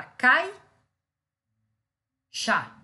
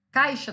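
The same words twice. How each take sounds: First: Cai, chá in two loud beats with a long pause; split into syllables. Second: Said in the usual way. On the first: Shown as a demonstration. Teacher dividing a word for students, loud separated syllables Cai, chá. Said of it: "Caixa não se separa?". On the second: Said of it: "não se separa?".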